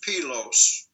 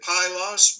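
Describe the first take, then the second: First: It is pronounced the original Greek way. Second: It is pronounced the usual English way. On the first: "but the Greek is Pylos" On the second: "we say Pylos"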